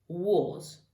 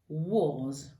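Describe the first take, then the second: First: The vowel sounds like a rounded 'o'. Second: The same.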